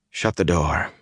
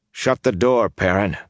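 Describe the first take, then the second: First: Said in the usual way. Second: Insistent. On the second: A narrator's reading. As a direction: insist the second time. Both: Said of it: "repeated "Shut the door".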